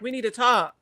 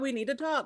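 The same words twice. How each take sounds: First: The tone is low and serious. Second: The tone is light and cheerful. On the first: The matter is important. The speaker calls it right. "so you know that I'm serious" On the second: The matter is casual and exciting. The speaker calls it wrong. "why would I be like, oh my God"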